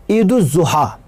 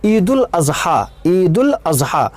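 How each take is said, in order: First: ईद-उज़-ज़ुहा said as id-uz-zuha, the common wrong form; wrong pronunciation. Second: ईद-उल-अज़हा said slowly as id-ul-azha, carefully; correct pronunciation. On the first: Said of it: "ये लफ्ज़ गलत है". (ग़लत उच्चारण ईद-उज़-ज़ुहा) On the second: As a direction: spell out ईद-उल-अज़हा slowly and clearly, twice. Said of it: "ये सही लफ्ज़ है". (धीमे, साफ़ सही उच्चारण ईद-उल-अज़हा) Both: Shown as a demonstration.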